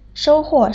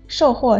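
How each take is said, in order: First: The first syllable has a high level tone. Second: The first syllable has a falling tone. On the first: It means to gain a good result. "收是一声" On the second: It means to sell goods. "受是四声"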